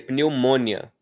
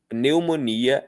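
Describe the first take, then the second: First: The i glides into the final a, one syllable. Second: The i and final a are separate syllables. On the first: The speaker calls it wrong. "a gente não pronuncia pneumônia" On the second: The speaker calls it right. "a separação silábica do jeito que está escrito é pneu, mo, ni, a"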